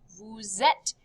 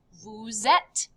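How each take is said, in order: First: "Vous êtes" as voo zet with a clear liaison; linked z sound. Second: "Vous êtes" as voo zet, z linking the words; linked z sound. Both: Shown as a demonstration. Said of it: "You kind of connect this Z sound".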